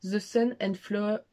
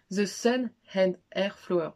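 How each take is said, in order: First: French speaker attempting English, slow; slowly sounding out "The Sun and Flower" with a French English accent; bad English accent. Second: Slow, overdone French-English "The Sun and Air Flower"; bad English accent. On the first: French vlogger mocking her own English accent, slow. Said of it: "Attention, mon accent anglais incroyable". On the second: Joking to viewers about her English, slow mock English. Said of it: "je suis très nulle en anglais". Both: Shown as a demonstration.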